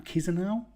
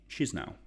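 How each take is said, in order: First: Chisinau said "kiz-uh-now", rising high and unsure; unsure pronunciation. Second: Chisinau said as "shiz-now", tentative; trying a pronunciation. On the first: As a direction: ask it: Chisinau as "كيزيناو"?. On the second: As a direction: try Chisinau as "شيزناو". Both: Shown as a demonstration. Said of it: "I've never actually thought about how you say it".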